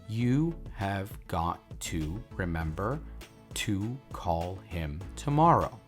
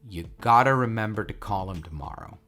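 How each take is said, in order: First: Every word is said fully and mechanically. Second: Words are reduced and linked in natural speech. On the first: "which I'm going to pronounce um, very uh, uh, mechanically" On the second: "I'm going to pronounce the sentence very naturally"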